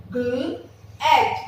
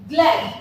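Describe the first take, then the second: First: "glad" split into gl, pause, ad; "glad" in two separated phonics pieces; sounded out. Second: Said in the usual way. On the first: Shown as a demonstration. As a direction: keep g and l together in "glad", then ad. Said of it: "G और L का sound all together". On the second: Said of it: "all together it will come".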